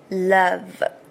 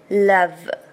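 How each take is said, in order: First: The word ends cleanly on the v sound. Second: The same.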